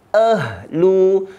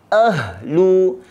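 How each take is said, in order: No difference in how they are said.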